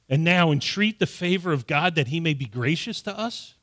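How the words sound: It is read as a question, rising at the end. It asks how favor could possibly be gained. The speaker calls it wrong.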